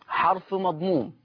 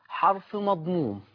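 The two takes are said the same way.

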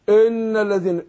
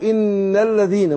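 First: The first vowel is not a clear 'ee' sound. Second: The first vowel is a clear 'ee' sound. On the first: The speaker calls it wrong. "ما اقولش ان الذين" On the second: The speaker calls it right. "انا بنطقها زي الحرف الاي بالانجليزي"

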